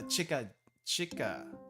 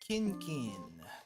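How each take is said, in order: First: The word is read with repeated chika sounds. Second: The word is read with repeated kin sounds. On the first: "can apparently be pronounced as Chica Chica" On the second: "this is Kinkin"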